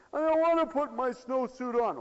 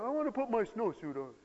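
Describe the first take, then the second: First: Put-on high, loud kid's complaint; protesting child. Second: Put-on relent like a kid who now wants out; child giving in. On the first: Child refusing to get dressed to go out, loud protest. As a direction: refuse loudly like a balky child. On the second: Child relenting half an hour later, high plea.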